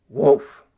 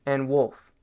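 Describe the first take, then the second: First: A short, louder call of Wolf. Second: Said in the usual way. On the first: Shown as a demonstration. Dance teacher calling out Wolf on the beat. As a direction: bark out Wolf like an animal. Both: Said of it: "Almost like you're doing a wolf".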